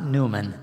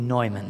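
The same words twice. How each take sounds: First: The name is said with an American pronunciation. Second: The name is said with a German pronunciation. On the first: The speaker calls it wrong. "I'm pronouncing the name wrong, because it's not Neumann" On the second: The speaker calls it right. "it's supposed to be Neumann"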